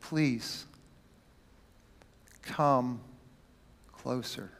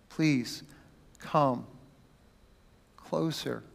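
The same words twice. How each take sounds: First: Soft, low, tender plea; gentle whisper. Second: Soft, low, gentle invitation; tender plea. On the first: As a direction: coax them near, barely audible. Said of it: "getting down to a whisper". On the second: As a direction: say it like calming a frightened child. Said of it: "extremely gentle and tender". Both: Acted.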